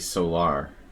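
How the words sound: It is said with a European pronunciation. "I live in Europe, so it would be solar"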